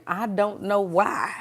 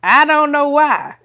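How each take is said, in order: First: Said in the usual way. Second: High, loud exclamation through laughter; laughing exasperation. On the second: Real, not acted. Puzzling aloud over God's last-minute timing, laughing exasperation. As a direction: burst out louder and higher, half laughing.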